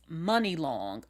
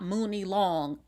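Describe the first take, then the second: First: The first syllable sounds like 'mun' in money. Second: The first syllable has a long 'oo' vowel. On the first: The speaker calls it right. "It's Money Long" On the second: The speaker calls it wrong. "it's not Mooney Long"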